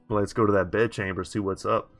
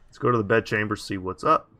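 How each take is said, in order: First: It is said in a creepy voice. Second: It is said in a normal voice.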